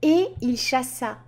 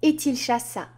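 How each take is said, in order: First: No T sound links 'et' to 'il'. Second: A T sound links 'et' to 'il'. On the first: The speaker calls it right. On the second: The speaker calls it wrong.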